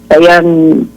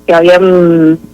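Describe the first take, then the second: No difference in how they are said.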